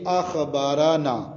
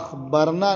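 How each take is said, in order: First: The r is followed by a short a vowel. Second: The r has no vowel after it. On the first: He informed us. The speaker calls it right. "रा पर ज़बर" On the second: We informed. The speaker calls it wrong. "रा के सुकून के साथ"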